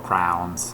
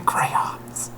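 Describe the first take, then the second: First: It is said as one syllable, like 'crown'. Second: It is said as two syllables, 'cray-ons'. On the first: This mimics how some other kids said it. The speaker calls it wrong. "pronounced it crown" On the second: This is the speaker's own way of saying it. The speaker calls it right. "I'm going to use my crayons"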